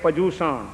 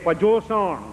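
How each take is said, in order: First: The second syllable sounds like 'joo'. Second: The second syllable sounds like 'jo'. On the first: "આપણે તો શબ્દને પણ કેટલા બધા અપભ્રંશમાં આવે" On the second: "આપણે તો શબ્દને પણ કેટલા બધા અપભ્રંશમાં આવે"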